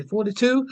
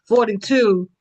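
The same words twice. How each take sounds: First: Forty-two? with a rising, unsure tune; unsure question. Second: Forty-two, louder with a firm falling tune; confident answer. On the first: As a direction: ask Forty-two? tentatively, pitch up at end. Unsure of son's age, asking. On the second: Confirms son's age after asking. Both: Real, not acted.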